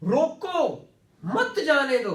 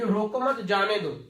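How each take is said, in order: First: A break comes after the first word. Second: A break comes after the second word. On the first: Stop him; don't let him go. "तो जब comma लगा दिया" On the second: Don't stop him; let him go. "ना रोकना दो"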